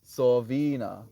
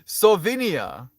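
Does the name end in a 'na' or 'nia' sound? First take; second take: na; nia. First: The name ends without an 'ee' sound: 'na'. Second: The name ends with an extra 'ee' sound: 'nia'. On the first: The speaker calls it right. "You're right. Sovina" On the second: The speaker calls it wrong. "Did I say Nia?"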